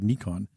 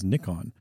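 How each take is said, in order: First: The name is pronounced the original way. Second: The name is pronounced the English way. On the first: The speaker calls it right. "That is how you pronounce the word Nikon" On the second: The speaker calls it wrong. "if you go to England, you'll hear people pronouncing it as Nikon"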